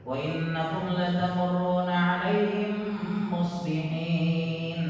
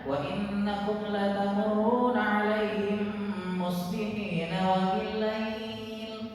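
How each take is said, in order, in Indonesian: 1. Berhenti setelah kata akhir ayat. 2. Langsung lanjut ke ayat berikutnya. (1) "Akhir ayat" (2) "Jadi harus bagaimana?"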